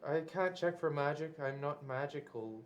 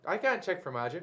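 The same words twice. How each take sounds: First: Softer, lowered voice after the mock yelling; toned down. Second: Mildly raised voice, as if calling across a room; a half-hearted yell back to a companion; mock yelling. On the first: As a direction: say it again at close-range volume, subdued. Repeats it without yelling for small room. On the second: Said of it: "Why are you yelling?".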